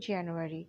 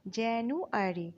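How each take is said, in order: First: Said in the usual way. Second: Slow, divided January; syllable by syllable. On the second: Shown as a demonstration. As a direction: break January into careful separate syllables. Teacher sounds out the month.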